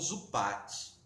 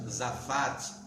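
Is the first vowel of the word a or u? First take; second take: u; a. First: The first vowel sounds like u. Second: The first vowel sounds like a. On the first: I will damage it. "ela pode ser pronunciada como Zupat, e se escreve igual" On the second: I will apply pitch to protect it. "essa mesma palavra, Zafat"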